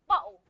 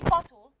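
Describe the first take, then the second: First: The middle sound is a glottal stop. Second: The middle sound is a clear t. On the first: "They use it ah, ah. The glottal stop" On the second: "they wouldn't say bottle"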